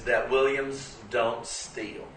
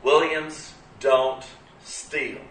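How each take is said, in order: First: Williams don't steal, each word slow and firm; slow firm maxim. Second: Williams don't steal, slow with higher pitch; raised, slow maxim. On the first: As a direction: lay it down slowly like a family rule. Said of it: "The number one thing you've got to know". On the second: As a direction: sing it out slow as the family creed. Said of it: "let me tell you something about Williamses". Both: Retold or imitated.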